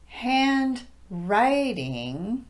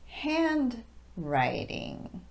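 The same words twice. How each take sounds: First: The main stress falls on the second part. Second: The main stress falls on the first part. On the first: The speaker calls it wrong. "incorrect stress would be handwriting" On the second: The speaker calls it right. "correct would be handwriting"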